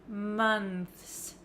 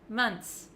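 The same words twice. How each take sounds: First: A clear th sound is said before the s. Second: The word ends in a plain ts sound. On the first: "If you want to say the T H sound clearly plus the S" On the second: "It looks like there's just a T S at the end"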